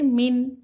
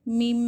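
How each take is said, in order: First: The final sound is a plain n. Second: The final sound is a nasalized m. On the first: The speaker calls it wrong. "ना के मीम नून ज़ेर मिन" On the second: The speaker calls it right. "मीम को मीम से मिलाकर पढ़ना चाहिए"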